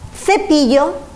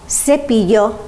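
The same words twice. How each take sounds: First: It is said with a Spain Spanish accent. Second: It is said with a Latin American accent. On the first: "the rest of Spain, we say" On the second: "In Latin America, they say"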